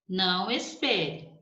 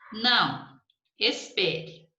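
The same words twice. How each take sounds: First: There is no pause after não. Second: There is a pause after não.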